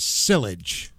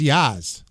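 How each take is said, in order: First: The word is said with an L sound. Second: The word is said without an L sound. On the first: "if I were to see it without the phonetic pronunciation" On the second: "there's no L in the phonetic pronunciation"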